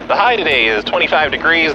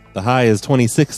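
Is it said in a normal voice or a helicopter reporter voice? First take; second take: reporter voice; normal voice. First: It is said in a helicopter reporter voice. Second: It is said in his normal voice.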